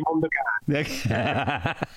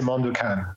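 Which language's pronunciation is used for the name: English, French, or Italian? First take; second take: Italian; English. First: The name is pronounced the Italian way. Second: The name is pronounced the English way. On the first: "to Italy, I'll say Mondokane" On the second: "if somebody asks in English, I would say Mondokane"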